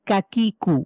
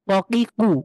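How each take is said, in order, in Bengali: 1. শব্দাংশগুলো বাংলার kaka, kaki-র মতো শোনাচ্ছে। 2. শব্দাংশগুলো আরবি ঢঙে বলা হচ্ছে। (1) "আমরা যে বাংলার কাকা কাকি ডাকি" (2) "কফ জবর ক কফ জের কি কফ পেশ কু ককিকু"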